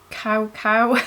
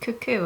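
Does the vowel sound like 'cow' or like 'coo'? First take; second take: cow; coo. First: Both syllables use an 'ow' vowel, like cow. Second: Both syllables use an 'oo' vowel, like coo. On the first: The speaker calls it wrong. "I thought it was cow cow or something" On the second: The speaker calls it right. "you pronounce this cuckoo"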